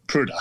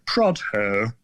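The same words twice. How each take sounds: First: Prudder said the local way, short u and hard dd; local pronunciation. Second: Prodher said the announcer way, open o; announcer's pronunciation. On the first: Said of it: "the locals called it". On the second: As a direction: Prodher as the BBC man says it. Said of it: "the B T announcer called it". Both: Shown as a demonstration.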